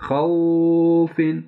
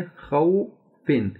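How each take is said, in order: First: खौफिन with the "au" dragged out long; over-stretched खौफिन, a bit louder; wrong, stretched. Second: खौफिन slowly, "au" not stretched; short diphthong. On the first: Teacher shows students the overlong खौफिन mistake. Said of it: "फ़र्ज़ किया इसको खींचें". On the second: Teacher models an unstretched खौफिन for students. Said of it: "ज़्यादा आप लंबा नहीं करेंगे". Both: Shown as a demonstration.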